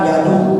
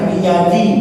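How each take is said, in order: First: The word ends in a u vowel. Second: The word ends in an i vowel. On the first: The speaker calls it wrong. "tidak boleh" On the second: The speaker calls it right. "Bacanya biyadi"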